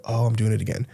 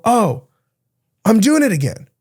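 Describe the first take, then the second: First: Soft, muted "oh, I'm doing it again"; a softer, inward realization; quiet self-catch. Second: A high, bright "oh" of catching yourself; surprised at your own habit, pitched up; lightly startled self-awareness; sudden realization. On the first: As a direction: say it to yourself under your breath. Being your own coach. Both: Pretend.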